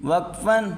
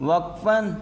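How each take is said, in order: The two takes are said the same way.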